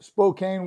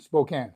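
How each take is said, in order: First: "Spokane" said spo-KAYN, long a as in cane. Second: "Spokane" said spo-KAN, short a as in can. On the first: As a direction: say "Spokane" ending like cane, stress on the second syllable. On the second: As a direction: say "Spokane" ending like can, stress on the second syllable. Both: Shown as a demonstration. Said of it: "I've heard it both ways".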